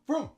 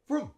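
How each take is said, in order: The two takes are said the same way.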